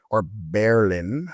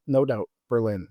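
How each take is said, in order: First: "Berlin" said slowly as BER-lin, the first syllable hit hard; stress on first syllable. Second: Said in the usual way. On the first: Shown as a demonstration. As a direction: say "Berlin" the local way, with the weight on BER. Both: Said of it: "with the emphasis on the first syllable".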